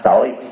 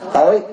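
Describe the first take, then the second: First: The word has a low, heavy, glottalized tone. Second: The word has a high rising tone. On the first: The word means sin or guilt. "Thêm dấu nặng là tội" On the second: The word means dark or ignorant. "thêm dấu sắc là tối"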